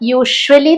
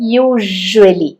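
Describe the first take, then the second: First: The middle consonant is a voiceless sh sound. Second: The middle consonant is a buzzing zh sound. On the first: The speaker calls it wrong. "യൂഷ്വലി എന്നല്ല" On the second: The speaker calls it right. "യൂഷ്വലി എന്നാണ് പറയുന്നത് കേട്ടോ"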